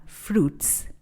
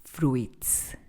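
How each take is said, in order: First: Fruits with a silent i, said "froots"; correct pronunciation. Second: Fruits with the i sounded, "fru-its"; wrong pronunciation. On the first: Teacher correcting Spanish speakers, fruits said "froots". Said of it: "La letra I es muda aquí". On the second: Teacher showing the mistake, fruits said "fru-its". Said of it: "no fruits". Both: Shown as a demonstration.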